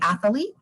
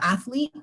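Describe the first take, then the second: First: An extra vowel is inserted, giving three syllables. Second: It is said with two syllables, no added vowel.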